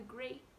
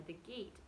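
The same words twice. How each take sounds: First: "grate" said with a clear gr at the start; misread word. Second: Said in the usual way. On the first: Shown as a demonstration. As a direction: read it wrongly as "grate". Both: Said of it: "sorry, the gate".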